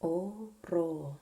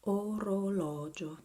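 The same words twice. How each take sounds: First: Orologio loud, broken into "oh, roh, LAW, jo"; syllable-by-syllable demo. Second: Orologio loud and connected, open "aw" in lo; pronunciation demo. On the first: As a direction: separate each syllable of orologio, open "aw" in lo. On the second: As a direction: model orologio as one word, "oh-roh-LAW-jo". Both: Shown as a demonstration. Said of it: "is pronounced".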